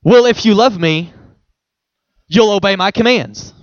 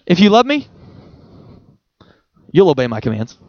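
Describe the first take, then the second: First: A stiff, demanding reading of the verse; preacherly stern version of the verse; religious stern reading. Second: Tender reading of the same verse; gentle loving version. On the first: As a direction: say it like a rule being enforced. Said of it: "here's the religious way that most of us have heard this verse". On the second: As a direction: invite rather than demand. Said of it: "I think he would say it this way". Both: Shown as a demonstration.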